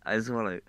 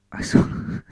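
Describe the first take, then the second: First: Said in the usual way. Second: Real laugh breaking up the line; losing composure while reading; breaking into laughter. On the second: Real, not acted. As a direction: crack up partway through reading it. Cracks up while reading, restarts.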